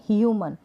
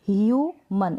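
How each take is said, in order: First: Said in the usual way. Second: human as a drawn-out hue, then मन; split into syllables. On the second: Shown as a demonstration. Teacher breaks the word for learners, human in two pieces. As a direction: set मन apart from hue in human. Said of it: "इसको break किया".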